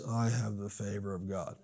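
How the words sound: It is said as a flat rote recitation. The words are recited without understanding. The speaker calls it wrong. "That's exactly how our liturgy sounded"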